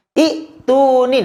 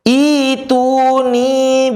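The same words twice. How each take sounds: First: "Ituni" with a short i and an abrupt catch, pitched high; high-pitched example of a chopped "Ituni"; wrong reading demo. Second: "Ituni" chanted high with a long first i, iii-tuni; slow melodic "Ituni", no catch after the i; long-vowel reading. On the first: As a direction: say "Ituni" as i'... tuni, cutting the first vowel. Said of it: "maka bukan gini". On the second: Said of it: "Maka bacanya panjang". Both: Shown as a demonstration.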